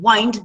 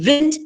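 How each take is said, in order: First: "wind" rhyming with find; long-i wind. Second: "wind" rhyming with pinned; short-i wind. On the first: Teacher using the verb in a sentence, "wind" like wined. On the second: Teacher using the noun in a sentence, short-i "wind". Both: Shown as a demonstration. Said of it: "different pronunciation".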